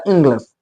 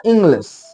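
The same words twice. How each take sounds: First: "इंग्लिश" with a reduced "luhs" ending; natural spoken form. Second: "इंग्लिश" with a clear "lish" ending; as written. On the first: Teacher shows how it leaves the mouth, "इंग्लिश" as "ingluhs". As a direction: say "इंग्लिश" as "ing-gluhs". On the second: Teacher reads out the written form, "इंग्लिश" with full "lish". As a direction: say "इंग्लिश" as spelt. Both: Shown as a demonstration. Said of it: "मेरे मुंह से निकलता".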